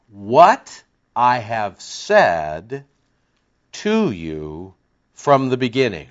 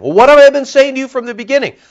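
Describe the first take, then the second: First: Very slow, word by word; slow dictation. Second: High, loud, fast rebuke; calling to account. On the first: Shown as a demonstration. Preacher dictating his translation for the congregation, very slow. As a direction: spell it out so they can write it. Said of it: "I'll give it to you one more time". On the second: Retold or imitated. Jesus calling the leaders to account, high and loud. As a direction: demand it, holding them to account. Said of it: "he's calling them to accountability".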